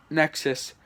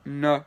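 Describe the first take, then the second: First: Said in the usual way. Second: "N-X-Sis" in three separate parts, nuh, ex, sis; slow syllable-by-syllable "N-X-Sis"; sounded out. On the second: Shown as a demonstration. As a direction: break "N-X-Sis" into syllables with pauses. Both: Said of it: "how to say them".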